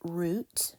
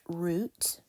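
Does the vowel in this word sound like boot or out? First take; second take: boot; boot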